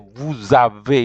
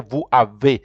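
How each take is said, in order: First: The two words are linked with a joining sound. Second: The two words are said separately, without linking. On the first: The speaker calls it right. "You have to say vous avez" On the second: The speaker calls it wrong. "you can never say vous avez"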